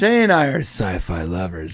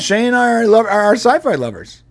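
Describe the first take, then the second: First: It is said in a suggestive, loaded way. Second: It is said in a plain, neutral way. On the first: They are romantic partners who like science fiction. "Same words, different inflection, completely changes the meaning" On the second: They are people who love science fiction. "and it sounds normal"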